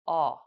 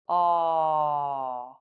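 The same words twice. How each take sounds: First: The vowel is said briefly at natural length. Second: The vowel is held for about one second. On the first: "then say it naturally" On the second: "then one second"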